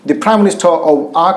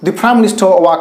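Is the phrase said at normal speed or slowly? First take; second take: slowly; normal. First: The phrase is said very slowly. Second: The phrase is said at normal speed.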